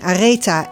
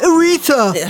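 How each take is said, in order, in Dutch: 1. De naam wordt uitgesproken met Nederlandse klanken. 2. De naam wordt uitgesproken met niet-Nederlandse klanken. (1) "Je moet het gewoon echt op z'n Hollands uitspreken" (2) "iedereen doet natuurlijk Areta"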